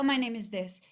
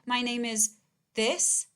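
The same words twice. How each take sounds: First: It is said smoothly with no pause. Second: There is a pause before the last word. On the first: The speaker is giving their real name. The speaker calls it right. "you would say" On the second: The name that follows is a lie. The speaker calls it wrong. "If someone pauses before they tell you their name"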